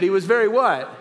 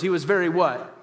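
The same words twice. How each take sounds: First: Emphatic prompt, "He was very what?" pushed out with conviction; like meaning it. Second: Said in the usual way. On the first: Shown as a demonstration. Preacher rousing congregation to answer, emphatic "very what". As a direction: press "very what" hard to demand an answer. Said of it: "Say it like you mean it".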